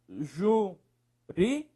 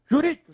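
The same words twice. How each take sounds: First: "Jurídicas" slowly split into JU, RÍ, DI, CAS; syllable by syllable. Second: Said in the usual way. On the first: Shown as a demonstration. Teacher separating the word, "Jurídicas" syllable by syllable. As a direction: say "Jurídicas" one syllable at a time.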